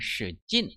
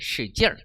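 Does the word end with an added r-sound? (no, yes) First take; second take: no; yes. First: The word ends without an added r-sound. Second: The word ends with an added r-sound.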